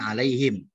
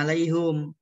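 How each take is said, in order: First: The vowel after the h is an i. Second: The vowel after the h is a u. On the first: This is the majority reading. "semua bacanya kebanyakan alaihim" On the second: This is the reading of one particular reciter. "ada juga yang bacanya alaihum"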